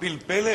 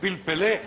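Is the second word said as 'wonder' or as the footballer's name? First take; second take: wonder; footballer's name. First: The second word sounds like the ordinary word 'wonder'. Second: The second word sounds like the footballer's nickname. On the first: The elephant is called a wonder. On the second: The elephant is named after a famous footballer.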